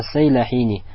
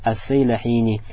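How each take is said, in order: First: The name begins with the sounds 'Sayla'. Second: The same.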